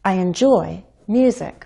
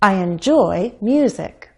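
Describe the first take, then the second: First: Enjoy and music are stressed equally. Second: The same.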